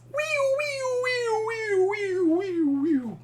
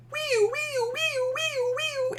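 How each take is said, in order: First: Passing siren. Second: Very high siren wee-wee; approaching siren. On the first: Teacher imitating a siren passing by, high then falling. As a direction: let the siren drop in pitch as it moves away. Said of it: "And when it passes". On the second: Teacher imitating an approaching siren, very high. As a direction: imitate a cop car siren coming toward you, very high. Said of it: "it's like". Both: Shown as a demonstration.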